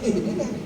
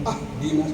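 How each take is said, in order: First: The word begins with an i vowel. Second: The word begins with an a vowel. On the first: The speaker calls it right. "harokatnya kasroh" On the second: The speaker calls it wrong. "itu salah lagi aja"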